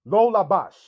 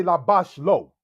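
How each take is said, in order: First: Lo said before labash, louder; correct word order. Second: Lo placed after labash; wrong word order. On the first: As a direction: put lo in front of labash. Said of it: "You wouldn't say labash lo". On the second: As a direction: say labash first, then lo. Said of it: "You wouldn't say". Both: Shown as a demonstration.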